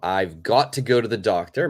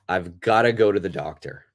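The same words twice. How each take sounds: First: 'Got to' is said as two separate words. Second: 'Got to' is linked and reduced to 'gotta'.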